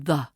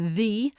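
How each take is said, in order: First: The vowel is a weak schwa. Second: The vowel is full and unreduced. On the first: "That's the schwa sound" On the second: "Notice how the becomes"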